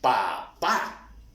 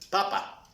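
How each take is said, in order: First: The last syllable is clearly stronger than the first. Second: Both syllables are said with equal, flat force. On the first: The speaker calls it right. "Miren cómo estamos dando fuerza y entonación a la sílaba" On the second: The speaker calls it wrong. "sin una sílaba tónica"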